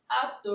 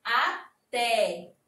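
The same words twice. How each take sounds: First: Até with a closed ê, as if it were atê; mock wrong stress Atê; wrong pronunciation. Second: Até with an open é at the end; correct pronunciation. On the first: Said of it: "É assim que a gente fala?". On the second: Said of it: "ficou com sentido quando nós colocamos o acento agudo". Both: Shown as a demonstration.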